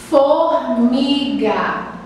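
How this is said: The word is said slowly, syllable by syllable.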